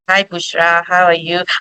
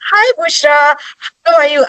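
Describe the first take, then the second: First: It is said flatly, with little energy. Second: It is said in a lively, animated way.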